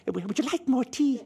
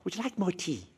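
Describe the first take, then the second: First: Much higher, sweet hostess offer; hammed-up middle-aged hostess; motherly hostess. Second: Gentle hostess offer, higher and a touch softer; mild air hostess offering tea. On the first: Middle-aged woman offers tea, hammed-up and high. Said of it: "middle-aged woman to turn to you and say". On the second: Retold or imitated. Air hostess offers tea to the returning passenger, gently. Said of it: "the air hostess says to you".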